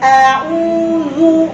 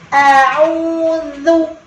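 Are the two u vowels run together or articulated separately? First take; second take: run together; separately. First: Both u vowels share one continuous lip rounding. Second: Each u vowel gets its own separate lip rounding. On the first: The speaker calls it wrong. "satu monyong dua huruf" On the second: The speaker calls it right. "dua domahnya harus bolak-balik"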